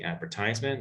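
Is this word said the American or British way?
American. It is said in an American pronunciation. "the speaker might be American, might say"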